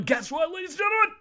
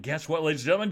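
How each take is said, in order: First: Very high, loud squealed announcement; excited shout. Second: Announcer-like tease, rising at the end; building excitement. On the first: Podcaster announcing her find to listeners, excited shout. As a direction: blow up the big reveal into a shriek. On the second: Podcaster announcing her find to listeners, building excitement. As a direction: set up the big reveal. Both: Real, not acted.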